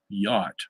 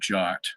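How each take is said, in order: First: The word begins with a Y sound. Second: The word begins with a J sound. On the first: "you could actually say yacht and be correct in Hebrew" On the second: "we use the, the J there"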